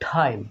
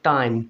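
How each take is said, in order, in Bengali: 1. 't' মহাপ্রাণ, বাংলা ঠ-এর মতো। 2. 't' অল্পপ্রাণ, বাংলা ট-এর মতো। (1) "এটাকে এখন কি উচ্চারণ করব" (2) "কি বলতাম টাইম, ট উচ্চারণ করতাম"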